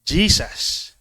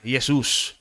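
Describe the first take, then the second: First: The name is given an English pronunciation. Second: The name is given a Spanish pronunciation. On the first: "In English" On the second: "Para silang Spanish or Mexican"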